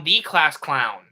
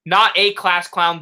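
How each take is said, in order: First: "the" drawn out as "thee"; stress on THE. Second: "a" stressed as "ay". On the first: Host works out the clown clue, stress on "the" as "thee". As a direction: land slowly on "the", pronounced "thee". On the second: Host works out the clown clue, stress on "a" as "ay". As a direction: punch "a", pronounced "ay", for contrast. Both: Real, not acted. Repeats line, contrasting a and the.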